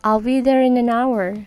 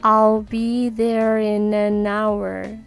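First: It is said at normal, fast speed. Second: It is said slowly.

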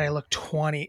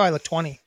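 First: It is said in a disgusted tone. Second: It is said in an excited tone. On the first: Looking that age is a bad thing. "And she said it with such just disgust" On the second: Looking that age is a good thing. "Instead of being like, that's exciting"

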